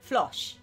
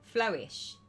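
First: The vowel sounds like the vowel in Josh. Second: The vowel does not sound like Josh. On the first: The speaker calls it right. "like Josh, but with a flur" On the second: The speaker calls it wrong. "Flu, flow, ooh, shh"

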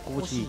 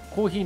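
First: It is said in Edo dialect. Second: It is said in standard Japanese. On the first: "江戸っ子だから" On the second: "コーヒーの方言えなくて"

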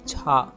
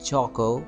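First: No vowel follows the first syllable. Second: A vowel follows the first syllable. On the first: The speaker calls it right. "it's chalk" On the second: The speaker calls it wrong. "It's not choco"

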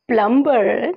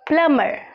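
First: The b sound is pronounced. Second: The b sound is silent. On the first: The speaker calls it wrong. "No, प्लम्बर नहीं होगा" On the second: The speaker calls it right. "इसे हम कहेंगे प्लम्बर"

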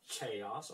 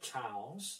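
First: The word begins with a 'k' sound. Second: The word begins with a 'ch' sound. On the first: The speaker calls it right. "You have to say chaos" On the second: The speaker calls it wrong. "instead of chaos or chaos"

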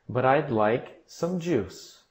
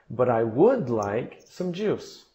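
First: The auxiliary is contracted and unstressed. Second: The auxiliary is full and stressed. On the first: A plain statement of the wish. "Seria a frase normal sem ênfase" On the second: The contrast with not wanting to eat is highlighted. "nós colocamos a ênfase no verbo auxiliar"

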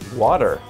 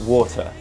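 First: It is said in an American accent. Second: It is said in a non-American accent.

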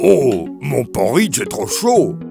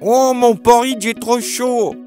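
First: A deep, gruff father bear voice. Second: A squeaky, high baby bear voice.

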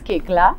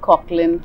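First: The name is said as 'Kekla'. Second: The name is said the way it is spelled. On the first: The speaker calls it right. "But it's Kekla" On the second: The speaker calls it wrong. "it's rather vulgar, but Koechlin"

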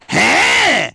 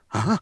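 First: It is in a gruff New York trucker voice. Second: It is a typical anime dub reaction sound.

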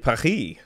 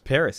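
First: Paris is said the French way, without final s. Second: Paris is said the American way, with final s. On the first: The speaker is talking with another French person. "if I was and I was speaking with another person who's also French, then I would say Paris" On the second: The speaker is talking with Americans. "That is the American pronunciation of Paris"

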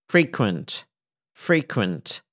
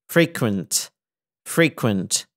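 No difference in how they are said.

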